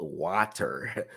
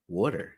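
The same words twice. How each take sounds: First: "water" with an open "wah" and crisp t; mock proper pronunciation. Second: "Water" with a rounded "waw" vowel; own accent pronunciation. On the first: Mocking how others say it, "water" enunciated as "wah-ter". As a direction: say "water" the overly proper way, lower. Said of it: "We don't say wa". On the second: Showing viewers how he talks, "Water" as "waw-der". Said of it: "I just talk like that". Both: Shown as a demonstration.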